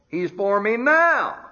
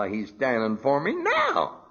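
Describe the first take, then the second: First: Preaching at full force. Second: Said in the usual way. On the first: Acted. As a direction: lift it and proclaim it. Refrain rising to full force.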